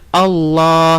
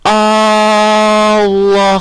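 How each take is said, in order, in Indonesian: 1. Vokal pembuka itu tetap dibaca pendek. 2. Vokal pembuka itu dipanjangkan. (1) "hamzahnya di depan itu kita baca pendek, tidak dipanjangkan" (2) "panjangkan hamzahnya. Jadi Allah seperti itu, nggak boleh"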